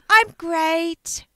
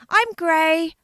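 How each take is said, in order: First: The final T sound is clearly heard. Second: The final T sound is dropped. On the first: The speaker calls it right. "I meant to say" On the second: The speaker calls it wrong. "But the T just didn't come out"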